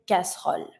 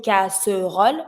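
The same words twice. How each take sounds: First: Casserole squeezed to nearly two syllables; barely sounded E. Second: Casserole in three full syllables; full middle E. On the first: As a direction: let the middle e of casserole almost vanish. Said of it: "to sound more natural when you say it". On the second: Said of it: "So instead of saying casserole". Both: Shown as a demonstration.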